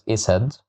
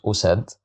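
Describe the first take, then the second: First: The word begins with an i vowel. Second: The word begins with a u vowel. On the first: "I can't pronounce it as isad" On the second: "I can't pronounce it as usad"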